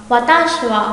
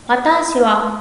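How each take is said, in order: Both takes have the same delivery.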